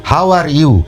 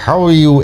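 First: "How are you" with every word fully sounded; Bengali learner's English. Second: "How are you" run together inside the mouth; swallowed native-style English. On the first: Teacher showing how we Bengalis say "How are you", each word separately pronounced. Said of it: "আবার আমরা যখন বলবো". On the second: Teacher imitating a native English speaker, "How are you" swallowed inside the mouth. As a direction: mumble "How are you" as one slurred word, "haw-yu". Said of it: "এরকম মুখের ভিতরে করে বলে দিবেন". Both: Shown as a demonstration.

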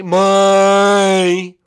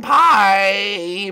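First: Very loud, high, long cartoon princess shout; obnoxious goodbye. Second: High drawn-out goodbye; bright sign-off. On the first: Princess shouting bye over the host, obnoxiously loud. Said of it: "Little obnoxious there". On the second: Pretend. Host says bye to everyone, calling out high. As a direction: call out a cheery farewell.

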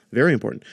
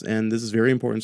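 First: Very hit louder, falling; stress on very important. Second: Said in the usual way. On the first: Real, not acted. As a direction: punch "very important" as a warning.

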